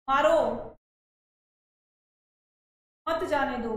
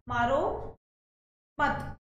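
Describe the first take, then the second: First: The pause comes after 'maaro'. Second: The pause comes after 'mat'.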